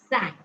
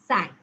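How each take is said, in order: First: The vowel sounds like the one in 'sank'. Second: The same.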